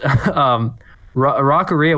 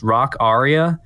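First: It is run together as one blended word. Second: It is said as two words, rock and aria. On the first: The speaker calls it wrong. "I pronounced it that way for a while" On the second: The speaker calls it right. "it's supposed to be pronounced rock aria, like an opera aria"

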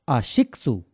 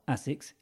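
First: It is said in a Japanese way, ending in su. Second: It is said in the usual English way. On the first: The speaker calls it right. "it's a Japanese brand" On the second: The speaker calls it wrong. "we've all been saying it wrong"

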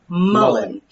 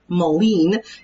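First: The word rhymes with sullen. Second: The word does not rhyme with sullen. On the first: The speaker calls it right. "it's actually pronounced like sullen" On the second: The speaker calls it wrong. "I used to pronounce it mullein"

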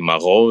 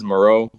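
First: The name has a French-style pronunciation. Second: The name has an English-style pronunciation. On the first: "the French way is like" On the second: "the way I say it is"

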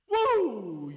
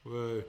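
First: It sounds genuinely enthusiastic. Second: It sounds sarcastic and fake.

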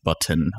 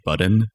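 First: The middle consonant is a T sound. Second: The middle consonant is a D sound. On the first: "instead of saying button" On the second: "make the two T's into a D"

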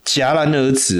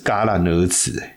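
First: The first syllable is pronounced jiá. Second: The first syllable is pronounced yà. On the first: "这个原来是念戛哦" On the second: "我怎么一直记得是戛然而止"

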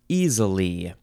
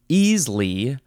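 First: The word is said with three syllables. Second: The word is said with two syllables. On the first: "three syllables" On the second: "Two syllables"

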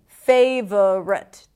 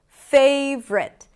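First: It is said with three syllables. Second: It is said with two syllables. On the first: "Then we have a schwa, v, rut, favorite, two schwas" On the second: "the middle syllable, eliminated"

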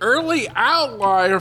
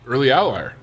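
First: It is said in an imitated TV-host voice. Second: It is said in the speaker's natural voice.

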